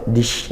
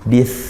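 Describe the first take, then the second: First: It ends with a hushing sh sound. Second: It ends with a soft th sound. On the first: The speaker calls it wrong. "atau sampai dish ya, itu shin" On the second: The speaker calls it right. "sa sukun ya, ujung lidah ke ujung gigi jari atas"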